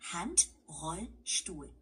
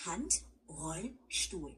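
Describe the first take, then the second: First: Handrollstuhl said slowly, broken into parts; slow, clear German model word. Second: Handrollstuhl drawn out slowly, each part clear; slow teacher demo of Handrollstuhl; slow German model. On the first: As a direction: say Handrollstuhl syllable by syllable. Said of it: "We can break that down too". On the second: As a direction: take Handrollstuhl nice and slow. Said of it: "Just take it slow". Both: Shown as a demonstration.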